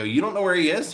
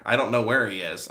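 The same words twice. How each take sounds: First: Higher-pitched questioning repeat; incredulous echo. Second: Said in the usual way. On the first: Retold or imitated. Vlogger to cemetery office man, retold incredulous question. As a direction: echo it back as a disbelieving question. Vlogger echoes answer in disbelief.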